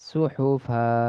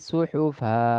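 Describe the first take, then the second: The two takes are said the same way.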